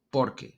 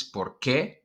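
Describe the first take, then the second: First: Por qué with por stressed, falling; teacher shows POR qué, stress on the o. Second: Por qué with qué stressed, rising; teacher shows por QUÉ, stress on the e. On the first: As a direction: hit por, voice down. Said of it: "The stress goes more, like, on the O". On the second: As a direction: hit qué, voice up. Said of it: "the stress goes on the E". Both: Shown as a demonstration.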